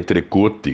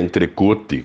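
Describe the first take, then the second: First: It is read as spelled, Portuguese-style. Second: The same.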